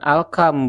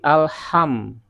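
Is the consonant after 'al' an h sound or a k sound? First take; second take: k sound; h sound. First: The consonant after 'al' is a k sound. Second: The consonant after 'al' is an h sound. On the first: The speaker calls it wrong. "bukan alkam" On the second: The speaker calls it right. "tapi alham"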